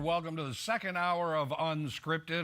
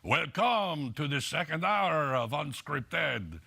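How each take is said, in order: First: It is said in the speaker's ordinary accent. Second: It is said in a put-on French accent.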